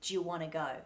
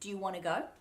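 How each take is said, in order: First: The words 'do you' merge into a J sound. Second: The words 'do you' begin with a D sound. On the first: "that do you will get mushed into that j sound" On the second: "how it would come out of my mouth quickly"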